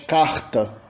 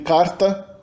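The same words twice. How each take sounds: First: It is said in a Rio/Northeast accent. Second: It is said in a São Paulo accent. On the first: "no Rio de Janeiro e no Nordeste" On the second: "Em São Paulo a gente tem carta"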